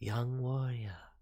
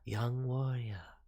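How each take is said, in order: First: The voice is breathy and calm. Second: The voice is breathy and calm.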